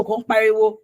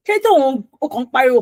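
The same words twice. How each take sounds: First: Said in the usual way. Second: Mock scolding. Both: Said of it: "people are telling you".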